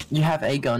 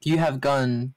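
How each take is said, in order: First: "a" said as a full, long "ay"; stress on "a". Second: Said in the usual way. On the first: Shown as a demonstration. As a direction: punch the article "a" separately. Repeats it with article stressed.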